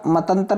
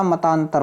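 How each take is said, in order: First: मतंतर with a short "tan" in the middle; मतंतर as the mistaken form; wrong pronunciation. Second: मतांतर with a long "taan" in the middle; मतांतर pronounced the right way; correct pronunciation. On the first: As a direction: say मतंतर as ma-tan-tar, no long vowel. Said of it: "मतंतर नहीं होता". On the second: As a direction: say मतांतर as ma-taan-tar, stretching the middle vowel. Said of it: "मतांतर होता है". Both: Shown as a demonstration.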